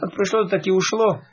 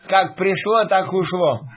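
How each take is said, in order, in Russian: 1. Сказано спокойно, без эмоций. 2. Сказано злорадно, с недобрым чувством. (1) "можно и так сказать... без этих эмоций" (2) "А вот эта интонация... это говорит о том, что мысли нечистые"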